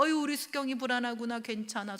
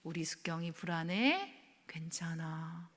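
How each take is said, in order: First: Spoken aloud, gently reassuring; voiced comfort. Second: Soft whispered reassurance, slow on 괜찮아; husband hugging her, whispering comfort. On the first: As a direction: say it like a hug, not a whisper. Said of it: "저를 꼭 끌어안아주고". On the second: Retold or imitated. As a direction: whisper it as if holding a scared child. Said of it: "저를 꼭 끌어안고".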